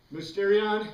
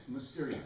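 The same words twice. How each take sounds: First: Mysterion said louder and higher, stressed for the class; a teacher hammering Mysterion home; emphatic repeat. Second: Said in the usual way. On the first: Shown as a demonstration. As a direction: proclaim Mysterion so it sticks. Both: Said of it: "This word we've got to always remember".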